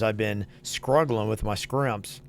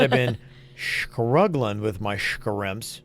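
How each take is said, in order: First: The s sounds are pronounced clearly. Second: The s sounds are pronounced with a lisp. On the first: It is a dialect feature, not a speech problem. "a speech therapist shouldn't fix that" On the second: It is a speech problem a therapist would correct. "trying to write a text version of a lisp"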